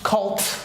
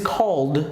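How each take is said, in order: First: The word ends with a sharp T sound. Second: The word ends softly without a T sound. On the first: The speaker calls it wrong. "it is not cult" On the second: The speaker calls it right. "This is called"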